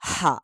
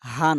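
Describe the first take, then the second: First: The h is breathed deep from the throat. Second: The h is a light, ordinary h sound. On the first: The speaker calls it right. "বরং এটার উচ্চারণ হলো হা" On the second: The speaker calls it wrong. "এটার উচ্চারণ হা না"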